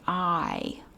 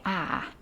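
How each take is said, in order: First: The word is said without a Southern accent. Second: The word is said with a Southern accent. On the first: "very few people who grew up in the South around people with Southern accents are going to say I" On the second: "You're going to say I, especially if you're mad"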